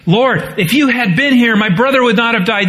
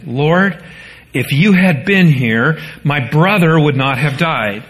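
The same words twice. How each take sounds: First: Higher, grieving plea to Jesus; pleading. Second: Said in the usual way. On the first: Acted. Preacher voicing Martha pleading with Jesus, higher and grieving. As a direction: voice the sister's aching reproach, quicker at the end. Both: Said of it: "Mary and Martha both make the same statements".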